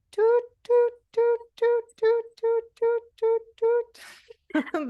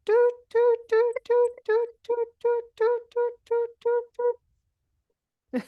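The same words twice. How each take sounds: First: Very high, repeated doot like a truck's reversing beep; high owl tooting for the class; saw-whet owl toot. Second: Very high, repeated doot like a truck's reversing beep; high owl tooting for the kids; saw-whet owl toot. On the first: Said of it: "And again, everyone". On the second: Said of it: "do your best Saw Whet Aloe impression". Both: Shown as a demonstration.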